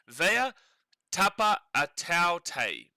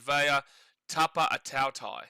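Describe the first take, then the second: First: The last syllable sounds like 'tay'. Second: The last syllable sounds like 'tie'. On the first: "Or tie. It's either tay or tie" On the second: "It's either tay or tie, but"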